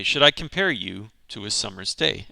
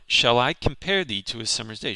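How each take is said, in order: First: Said in the usual way. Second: Measured recital of the line; poem reading. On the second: Shown as a demonstration. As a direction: read the line like verse. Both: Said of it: "we'll go through it line by line".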